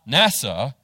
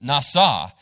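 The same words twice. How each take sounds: First: It is pronounced like the English acronym. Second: It is pronounced like the Hebrew word. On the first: The speaker calls it wrong. "Not NASA" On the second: The speaker calls it right. "but nasa"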